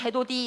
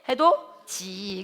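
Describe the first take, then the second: First: The consonant before the final vowel is a d. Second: The consonant before the final vowel is a j. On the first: The speaker calls it wrong. "해도디 이렇게 하지 않고" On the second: The speaker calls it right. "어떻게? 해도지"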